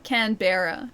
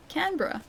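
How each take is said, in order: First: "Canberra" as can-BEAR-a; emphasis on bear. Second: "Canberra" quick and higher, CAN-bruh; usual local pronunciation. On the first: Retold or imitated. Streamer imitating someone who emphasizes bear in "Canberra", can-BEAR-a. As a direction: lean on a full "bear" in the middle of "Canberra". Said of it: "He emphasizes bear". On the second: Shown as a demonstration. Streamer contrasting the local "Canberra", quick CAN-bruh. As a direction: squeeze "Canberra" to two syllables. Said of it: "That's how you say it".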